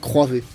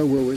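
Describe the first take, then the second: First: The name begins with a 'kr' sound. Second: The name begins with a 'w' sound. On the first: The speaker calls it right. "ça se dit Croivé" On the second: The speaker calls it wrong. "ça se dit pas Huawei"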